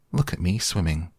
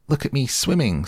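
First: Said in the usual way. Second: Much higher squeaky little one; squeaky Roo. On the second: Acted. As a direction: squeak it with glee. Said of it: "squeaked Roo".

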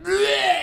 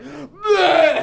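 First: Loud, high retching blurt; fake vomiting noise. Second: Loud, high retching blurt; vomiting noise. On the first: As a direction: imitate throwing up. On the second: Retold or imitated. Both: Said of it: "I just made a puke noise".

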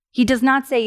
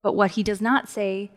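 First: "not" pressed harder, louder; stress on not. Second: Said in the usual way. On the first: Shown as a demonstration. Preacher correcting a misreading, stress on "not". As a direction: lean on "not" to deny it.

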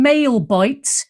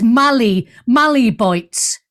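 First: "male bites" with a long MALE; mispronounced Mally bites. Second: "Mally" as MAL-ee, two syllables; short "a" in "Mally", ending in "ee"; corrected Mally pronunciation. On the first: Host apologises for her error, "male bites" as MAIL bites. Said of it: "I've kept saying". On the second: Host corrects a listener's name, "Mally" as MAL-ee. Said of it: "I'm so sorry that I've kept saying". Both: Shown as a demonstration.

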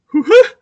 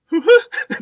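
First: High, loud startled two-note hoo-ha; stunned hoo-ha. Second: High, loud hoo-ha through laughter; two-note hoo-ha. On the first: A frozen old man startled by the model, high loud hoo-ha. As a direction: blurt it out in shock. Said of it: "he looks at me and goes". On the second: Retelling the old man's shocked reply, laughing hoo-ha. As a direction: repeat the stunned two notes, laughing. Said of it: "Just the two notes". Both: Retold or imitated.

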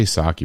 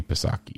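First: Psaki said "sah-kee" with the P silent. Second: Psaki said "puh-sah-kee", the P pronounced; P sounded. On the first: Explaining a name to viewers, Psaki with silent P. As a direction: drop the P in Psaki. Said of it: "but there's a P A". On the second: Insisting on a name's spelling, Psaki with P sounded. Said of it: "It's gotta be Psaki". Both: Shown as a demonstration.

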